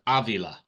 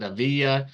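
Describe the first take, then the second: First: The middle consonant is an L sound. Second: The middle consonant is a Y sound. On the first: The speaker calls it right. "but it's Avila" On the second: The speaker calls it wrong. "the double L is a Y sound"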